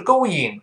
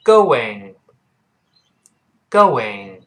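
First: "going" wrongly as go-ying; mispronunciation demo. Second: Slow "going" as go-wing; low, drawn-out model of "going" with w glide; correct pronunciation demo. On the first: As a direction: say "going" with no lip glide before ing. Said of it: "注意不是going". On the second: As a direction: round the lips into a w inside "going". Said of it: "注意不是going，是". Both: Shown as a demonstration.

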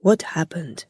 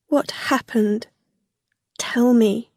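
First: Lightly voiced, subdued concern; concerned friend. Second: Higher, anxious plea; shocked plea. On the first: Kia asking returning Rilla, gentle concern. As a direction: ask gently, a little lower. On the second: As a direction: ask anxiously, pitched up. Shocked Rilla begs for news. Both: A narrator's reading.

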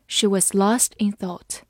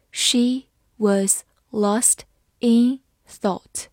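First: Said in the usual way. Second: Very slow, word by word; slow reading. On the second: Shown as a demonstration. Teacher reading slowly for students, slow and clear. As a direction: read it slowly for learners. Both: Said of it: "好，慢慢来读。".

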